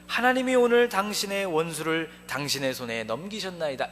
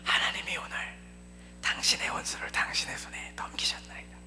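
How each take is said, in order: First: It is spoken in a loud voice. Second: It is spoken quietly, with urgent frustration.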